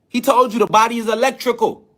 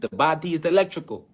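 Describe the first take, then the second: First: Said in the usual way. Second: A light, understated hint of Sebi's Honduran accent, quieter; Doctor Sebi's accent. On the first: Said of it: "in his accent". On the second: The speaker quoting Sebi to viewers in a mild imitation of his Honduran accent. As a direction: mildly mimic Sebi's Honduran accent on "The body is electrical". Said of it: "You know, in his accent".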